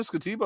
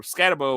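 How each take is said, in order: First: Scatibo said as "skuh-TEE-bo"; trial pronunciation. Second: Scatibo said as "SKAT-uh-bo"; alternative pronunciation. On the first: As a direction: stress the middle of Scatibo, with an "ee" sound. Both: Shown as a demonstration. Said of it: "how do I pronounce".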